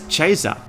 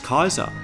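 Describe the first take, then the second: First: The word starts with a ch sound. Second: The word starts with a hard k sound. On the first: This is the Church Latin pronunciation. "Church Latin, in which C is pronounced as Ch" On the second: This is the classical Roman pronunciation. "Traditional Roman Latin pronounces Caesar as Kaiser"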